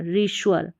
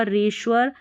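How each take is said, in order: First: रीश्वर said as ree-shoo-er; रीश्वर with a separate शुअर ending; pronunciation demo. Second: रीश्वर said as ree-shur; रीश्वर with a short शर ending; alternative pronunciation. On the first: Teacher shows the ree-shoo-er reading of रीश्वर. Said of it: "इसको री, री और श्योर". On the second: Teacher gives students the ree-shur reading of रीश्वर. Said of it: "श्योर करके भी पढ़ेंगे तो गलत नहीं होगा". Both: Shown as a demonstration.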